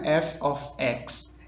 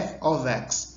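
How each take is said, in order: First: The word 'of' ends with an f sound. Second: The word 'of' ends with a v sound. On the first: The speaker calls it wrong. "não é f of x" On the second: The speaker calls it right. "esse fzinho do of, fosse um v"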